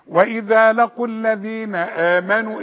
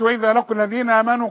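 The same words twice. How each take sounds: First: The glottal stop before 'amanu' is clearly pronounced. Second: The glottal stop before 'amanu' is weak or blurred. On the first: The speaker calls it right. "الهمزه تبان" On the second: The speaker calls it wrong. "ما تقولش"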